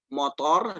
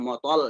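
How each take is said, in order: First: The final consonant is an R sound. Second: The final consonant is an L sound. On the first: "kalau misalkan orang Jawa itu motor" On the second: "dibilang motol"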